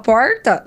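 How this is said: The R is said in a caipira way. People would mock this pronunciation. "vão rir dela ... é caipira"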